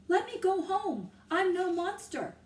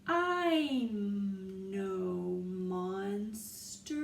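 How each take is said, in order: First: Loud, high quick retelling; ringing voice. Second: Very slow drawn words; stretched out. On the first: A narrator's reading. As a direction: ring it through the silence. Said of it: "Annie's voice rang through the silence". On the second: Shown as a demonstration. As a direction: stretch each word out. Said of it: "taking such a long time to read".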